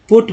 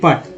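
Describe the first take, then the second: First: The vowel is a short 'oo' sound. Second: The vowel is a short 'uh' sound. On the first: The speaker calls it right. "पुट पढ़ते हैं" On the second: The speaker calls it wrong. "ना कि पट"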